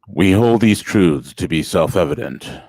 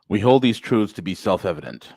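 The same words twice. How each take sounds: First: It is read in a put-on deep voice. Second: It is read in an ordinary speaking voice.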